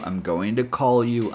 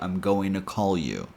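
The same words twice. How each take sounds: First: The t in to sounds almost like d. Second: The t is dropped, blending into an n sound.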